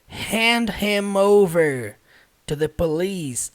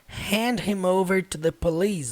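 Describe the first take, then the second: First: The phrase is spoken at a slower pace. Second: The phrase is spoken at a faster pace.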